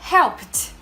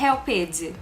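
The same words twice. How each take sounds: First: The word ends with a t sound. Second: The word ends with a d sound. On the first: The speaker calls it right. "e sim com som de T, e fica helped" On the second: The speaker calls it wrong. "não vai falar helped com som de D"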